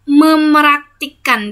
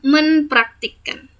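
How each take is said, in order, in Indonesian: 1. Bunyi p setelah mem dihilangkan. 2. Bunyi p setelah mem dipertahankan. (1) "Kita tidak pernah mengatakan memraktikkan" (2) "yaitu kita mempraktikkan"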